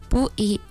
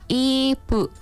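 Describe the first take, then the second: First: The two syllables come in reversed order. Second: The two syllables come in normal order. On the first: A child who cannot yet say the word says it. The speaker calls it wrong. "itu terbalik Mbak" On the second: The child has learned to say the word. The speaker calls it right. "Alhamdulillah bisa Mbak ngomong ibu"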